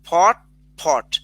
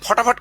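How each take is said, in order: First: The two parts are said without a linking vowel. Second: An extra vowel links the two parts quickly.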